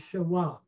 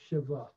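First: The middle consonant is a w sound. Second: The middle consonant is a v sound. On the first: This is the older pronunciation. "the older pronunciation would be Shiva" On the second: This is the modern Hebrew pronunciation. "the W is pronounced like a V"

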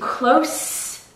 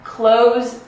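First: The word ends with a hissing S sound. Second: The word ends with a buzzing Z sound. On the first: It describes being near something. "It has an S sound" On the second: It is an action of shutting something. "have a Z sound if it's a verb"

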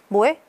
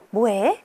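First: It is said in a plain, flat tone. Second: It is said in a sweet, affectionate tone. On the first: It is just a casual message. "이것도 그냥 뭐해?" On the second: It is read as a message from someone you like. "이게 아니라 뭐해?"

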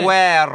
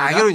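First: The name has a gw sound. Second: The name has a plain g sound. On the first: This follows the umlaut in the spelling. The speaker calls it right. "아구에로 정확하게 해줘야 돼요" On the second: This is the English-style pronunciation. The speaker calls it wrong. "영어식 표현이죠"

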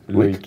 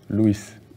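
First: The name is pronounced the French way. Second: The name is pronounced the Spanish way. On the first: "Luis, sí. Bien, ¿eh?" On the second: "Muchos españoles dicen Luis"

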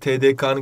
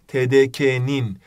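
First: The suffix is said with a back 'ı' vowel. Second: The suffix is said with a front 'i' vowel. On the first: The speaker calls it wrong. "skandaldır arkadaşlar. Yanlıştır" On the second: The speaker calls it right. "demeniz lazım"

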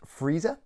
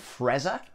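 First: The name sounds like the word 'freezer'. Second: The name sounds like 'frezza'. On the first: The speaker calls it right. "It's obviously pronounced freezer, like the appliance that keeps things cold" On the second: The speaker calls it wrong. "I think that's how you pronounce it. So that's not how you pronounce it"

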